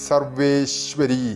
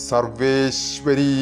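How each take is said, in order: No difference in how they are said.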